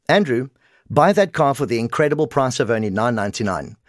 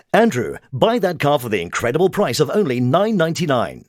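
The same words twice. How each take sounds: First: Said in the usual way. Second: Dramatic, projected announcer read; affected ad read. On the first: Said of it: "non-affected". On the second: Shown as a demonstration. Coach demonstrating a car ad, affected and projected. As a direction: add muscle and drama to the sales line. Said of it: "The second was affected".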